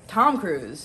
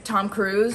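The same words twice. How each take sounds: First: The stress is on the first word. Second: The stress is on the second word. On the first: "like to emphasize the first part of people's names" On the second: "instead of saying Tom Cruise"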